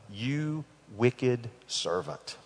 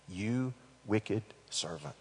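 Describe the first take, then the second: First: "You wicked servant" drawn out slowly and firmly. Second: "You wicked servant" dropped low and soft; quiet, menacing. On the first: The master rebukes the servant, slow and firm. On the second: The master repeats his rebuke, quiet and menacing. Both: Shown as a demonstration.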